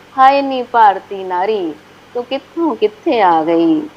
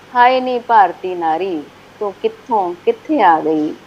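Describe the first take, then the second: The two takes are said the same way.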